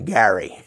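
The name is said the East Coast way. "Back east, they always call me Gary"

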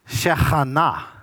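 The word has a Hebrew pronunciation. "the Hebrews would say it this way"

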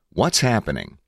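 It is said as a statement, falling at the end.

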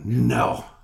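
It is said in a curt, clipped, gruff way. This is how another person hears the speaker. "that's the way he says I talk ... clipped short kind of Luca Brasi kind of guy"

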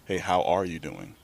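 It sounds like a sincere, caring question.

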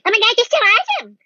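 It sounds mocking, an exaggerated imitation.

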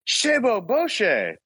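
It is said in a startled way.

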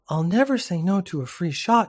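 It is read in a put-on girl's voice.

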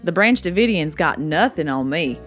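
It is said in a southern accent.

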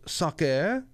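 It is said in a French accent.

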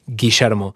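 The double L sounds like 'sh'. This is how it sounds in Argentine Spanish. "The double L sounds like shh"

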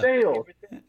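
It is said the Kentucky way, ending 'sails'.

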